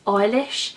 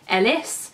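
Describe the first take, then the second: First: The name ends with an sh sound. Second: The name ends with a plain s sound. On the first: The speaker calls it right. "they were pronouncing it as Eilish, which is obviously the Irish pronunciation" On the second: The speaker calls it wrong. "I was pronouncing it in my head as Ellis"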